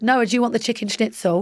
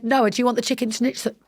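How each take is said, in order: First: Said in the usual way. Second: Whispered, with schnitzel blurred by the brace; "schnitzel" slurred, as if the aligner catches the s; lisped through Invisalign. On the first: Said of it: "And then Bod said". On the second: Real, not acted. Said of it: "Hard to say if you're".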